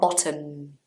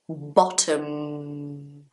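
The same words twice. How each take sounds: First: The final M is dropped into the vowel. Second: The final M is fully closed. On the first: The speaker calls it wrong. "not bottom" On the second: The speaker calls it right. "you still say the M"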